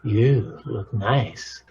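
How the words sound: The tone is warm and affectionate. The speaker sincerely and lovingly means it. "that comes from the good, loving wolf"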